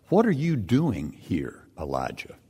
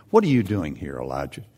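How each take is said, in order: First: Voice of God. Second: Voice of God again. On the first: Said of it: "The word of the Lord came to him". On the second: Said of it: "the voice said to him". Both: Acted.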